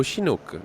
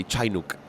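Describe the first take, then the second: First: Chinook said "shi-NOOK", soft SH start; corrected pronunciation. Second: Chinook said "CHAI-nook", hard CH; Italian-style pronunciation. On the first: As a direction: begin Chinook with SH and a short i. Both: Shown as a demonstration. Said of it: "In Italy, we say Chinook".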